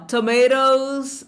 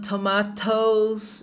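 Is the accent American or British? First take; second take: American; British. First: It is said with an American English accent. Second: It is said with a British English accent. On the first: "inglês americano" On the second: "inglês britânico"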